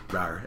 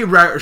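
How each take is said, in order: First: Low, soft token "rawr"; half-hearted roar. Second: Louder, higher "rawr"; mock lion roar. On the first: Retold or imitated. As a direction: barely attempt a lion's roar. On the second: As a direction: imitate a lion roaring with more force. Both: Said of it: "she roars extremely loud like a lion".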